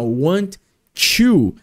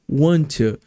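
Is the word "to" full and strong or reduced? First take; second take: strong; reduced. First: The word "to" is said fully and strongly. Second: The word "to" is weak, with a schwa. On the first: The speaker calls it wrong. "fazendo ele muito forte" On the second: The speaker calls it right. "O certo seria falar want to. Bem, bem, bem caído"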